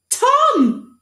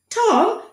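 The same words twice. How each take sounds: First: Very high, loud triumphant cry; triumphant boy. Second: High doctor echoing the name; exclaiming doctor. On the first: Boy finally recalling his name, triumphant cry. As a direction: shout it out in relief. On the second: Doctor echoing the boy's name, high exclaim. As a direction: echo it as if he knew. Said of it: "exclaimed the doctor". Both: Acted.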